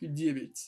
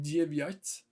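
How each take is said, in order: First: The second vowel is reduced, like a short 'i'. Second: The second vowel is a full 'ya' sound. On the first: The speaker calls it right. "I'm saying more like девять" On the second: The speaker calls it wrong. "I'm not saying девять"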